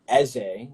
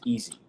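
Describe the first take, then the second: First: The name is said with its Igbo pronunciation. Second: The name is said like the English word easy. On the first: It is the Igbo word for king. "which is the actual pronunciation" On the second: It plays on the English word easy. "in the U S, we just pronounce it as easy"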